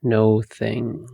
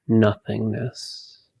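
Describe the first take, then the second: First: "no thingness" broken up as no, thing, ness; word split apart. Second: Said in the usual way. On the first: Shown as a demonstration. Meditation guide reveals the word's parts, "no thingness" split apart. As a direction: say "no thingness" in separate parts, pausing before the final ness.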